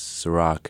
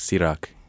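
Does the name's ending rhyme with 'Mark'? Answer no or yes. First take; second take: yes; no. First: The name ends with a sound rhyming with Mark. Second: The name ends with a sound not rhyming with Mark. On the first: It is a simplified version so everyone can say it. The speaker calls it wrong. "rhymes with Mark, which is incorrect" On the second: It is the original version of the name. The speaker calls it right. "It doesn't rhyme with Mark"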